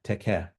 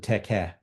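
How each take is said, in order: No difference in how they are said.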